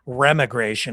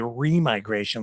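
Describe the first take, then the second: First: The word starts with rem, joined to igration. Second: The word starts with re, then migration. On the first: The speaker calls it wrong. "everybody's pronouncing it remigration" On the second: The speaker calls it right. "It would be remigration, like reversed migration"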